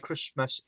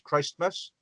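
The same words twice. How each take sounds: First: It is said with a silent t, like Chrismas. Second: It is said with Christ fully sounded. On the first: This is how everyone actually says it. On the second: This is how the spelling suggests it should be said.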